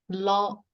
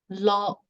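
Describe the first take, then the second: The two takes are said the same way.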